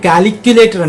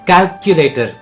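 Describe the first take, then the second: First: It begins with an extra 'cali' syllable. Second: It begins with a joined 'calc' sound. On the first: The speaker calls it wrong. "క్యాలీ ఉండదు" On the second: The speaker calls it right. "క్యాల్క్ లా కా కలిపి క్యాల్కులేటర్"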